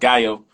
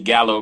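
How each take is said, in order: First: The name is said with a Spanish pronunciation. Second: The name is said with an English pronunciation. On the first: This is how the word is said in its original language. "Gallo actually is Spanish. It's pronounced Gallo" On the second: This is how a non-Spanish speaker says it. "I pronounce it Gallo because I'm not Spanish"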